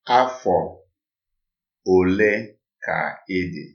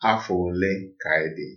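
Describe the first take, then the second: First: It is said slowly. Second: It is said at normal speed.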